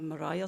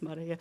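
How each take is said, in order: First: The name is said with an English pronunciation. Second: The name is said with a non-English pronunciation. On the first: The speaker calls it wrong. "I pronounce it in English" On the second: The speaker calls it right. "but it's Maria"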